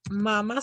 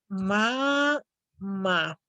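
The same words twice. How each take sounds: First: Mama with the stress on the first syllable, MA-ma. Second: Mamá with the stress on the last syllable, ma-MÁ; stress on final syllable. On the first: Teacher contrasting for students mama without the written accent. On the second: Teacher to students, showing mamá stressed on the last syllable. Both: Shown as a demonstration. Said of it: "la palabra mama sin acento".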